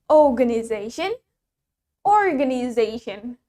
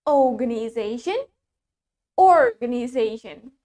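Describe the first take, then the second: The two takes are said the same way.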